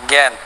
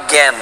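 Both takes have the same delivery.

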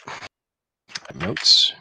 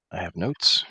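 First: Slow whisper. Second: Said in the usual way. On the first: Shown as a demonstration.

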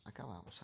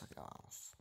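First: Said in the usual way. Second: Whisper. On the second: Real, not acted. Repeats, fading to whisper.

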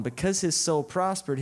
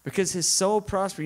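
First: "his" leaned on, falling after; stress on his. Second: "soul" leaned on, falling to the end; stress on soul. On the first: Preacher to congregation, stressing "his". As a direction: lean on "his" in "Because his soul prospered". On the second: Preacher to congregation, stressing "soul". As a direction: lean on "soul" in "Because his soul prospered". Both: Acted. Repeats line stressing different word.

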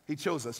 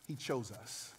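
First: Said in the usual way. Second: Dropped almost to a hush, falling; quiet awe. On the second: Shown as a demonstration. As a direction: say it soft and intimate.

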